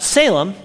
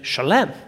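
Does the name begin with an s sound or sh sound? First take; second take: s; sh. First: The name begins with an s sound. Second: The name begins with an sh sound. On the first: The speaker calls it wrong. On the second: The speaker calls it right.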